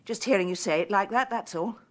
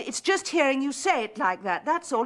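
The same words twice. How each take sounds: First: Said in the usual way. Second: Repeated louder to be heard; louder insistent repeat. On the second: Acted. Woman repeating herself louder to Freddie down the phone. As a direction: say it again, pushing through the line. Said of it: "I said".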